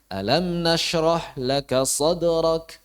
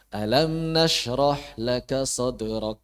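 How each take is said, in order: First: It is read with clear question intonation. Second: It is read flat, without question intonation. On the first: The speaker calls it right. "Nah, baru. Oh iya. Ada unsur tanyanya itu tegas" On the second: The speaker calls it wrong. "Kurang pas"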